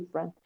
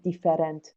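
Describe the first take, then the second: First: The middle vowel is dropped, giving two syllables. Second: The middle vowel is pronounced, giving three syllables. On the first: The speaker calls it right. "میگی different ... that vowel is silent" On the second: The speaker calls it wrong. "تو نمیگی different"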